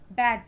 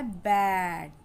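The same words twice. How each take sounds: First: "बैड" said loud and quick with a short A; short, emphatic "बैड". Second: "बैड" said slowly and clearly with the short A; slow, careful "बैड"; short A demo. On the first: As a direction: punch out "बैड" briskly. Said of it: "जल्दी से आ का sound". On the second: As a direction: model "बैड" drawn out for learners. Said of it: "छोटे आ का sound". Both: Shown as a demonstration.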